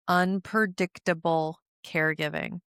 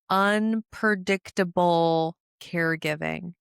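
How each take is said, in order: First: Said in the usual way. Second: Unpredictable caregiving spelled out slowly; slow emphasis. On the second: Shown as a demonstration. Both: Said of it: "repeated for emphasis".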